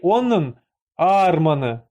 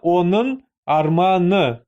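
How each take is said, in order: First: The stress falls before the final syllable. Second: The stress falls on the final syllable. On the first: The speaker calls it wrong. "не онын арманы" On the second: The speaker calls it right. "а именно онын арманы"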